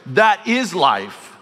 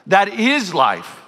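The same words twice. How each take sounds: First: Slow emphatic. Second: Slow emphatic, higher. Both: Shown as a demonstration. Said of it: "emphatic repeat".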